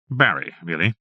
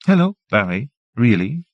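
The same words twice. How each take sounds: First: Said in the usual way. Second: Bright teasing repeat, a bit louder; playful echo. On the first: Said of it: "encouraged him to admit". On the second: A narrator's reading. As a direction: echo his words back, amused. Janet playfully echoes his words.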